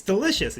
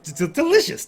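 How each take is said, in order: First: High, falling purr of delight; excited. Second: High, stammering delight; gushing noblewoman; excited. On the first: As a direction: let the word settle, pleased. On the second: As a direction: savour the word, thrilled. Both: Acted. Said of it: "she's super excited about the idea".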